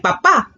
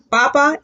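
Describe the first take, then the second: First: Papa with the second syllable stressed; stress on final A. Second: Papa with the first syllable stressed. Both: Shown as a demonstration. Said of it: "Papa is potato and papa is dad".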